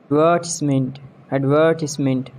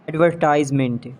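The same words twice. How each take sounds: First: "Advertisement" as ad-VUR-tis-ment; short I in "Advertisement"; British pronunciation. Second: "Advertisement" as ad-ver-TIZE-ment; long I in "Advertisement"; mispronounced advertisement. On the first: Shown as a demonstration. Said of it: "exact pronunciation according to the British". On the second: Acted. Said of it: "not advertisement".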